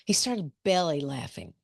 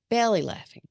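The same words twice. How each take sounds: First: Said in the usual way. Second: "belly laughing" said higher and louder, punched; stress on belly laughing. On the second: Shown as a demonstration. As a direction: hit "belly laughing" hard and high.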